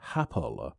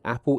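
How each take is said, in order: First: It starts with an added H sound, Tristanian-style. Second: It starts with a plain vowel sound.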